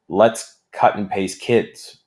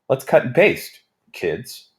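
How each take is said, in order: First: It runs straight on with no pause before kids. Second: There is a pause before kids.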